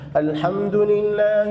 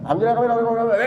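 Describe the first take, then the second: First: It is brisk but clearly articulated. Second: It is rushed and slurred together. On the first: The prayer is recited properly even when quick. The speaker calls it right. "Kalau mau baca cepat pun harus dengan hadar" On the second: The prayer is treated as a game to finish quickly. The speaker calls it wrong. "Itu bukan tarawih, itu mainan"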